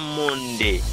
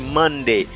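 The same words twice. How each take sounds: First: The first vowel is a nasal 'on' sound. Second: The first vowel is a plain English 'uh' sound. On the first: The speaker calls it wrong. "c'est pas Monday" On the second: The speaker calls it right. "c'est Monday"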